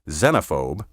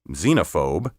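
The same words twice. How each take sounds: First: The first vowel is a short E sound. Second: The first vowel is a long E sound. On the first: The speaker calls it right. "Pronounce these words with a short E" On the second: The speaker calls it wrong. "with a long E"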